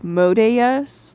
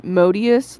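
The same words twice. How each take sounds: First: "Modeus" with a drawn-out DAY in the middle; day instead of dee. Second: "Modius" with a DEE in the middle; usual name pronunciation. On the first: Reviewer showing the dub's slip, stretched day-sound pronunciation. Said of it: "a day instead of a D". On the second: Reviewer giving the expected name, dee-sound pronunciation. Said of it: "where they pronounced Modius". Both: Shown as a demonstration.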